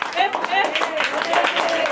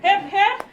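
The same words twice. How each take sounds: First: It is said in a dull, flat way. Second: It is shouted with more energy.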